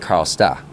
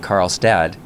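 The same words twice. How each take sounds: First: The end of the word is cut off. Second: The end of the word is fully pronounced. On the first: "people don't tend to say the ends of words" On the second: "instead of saying Karlstad"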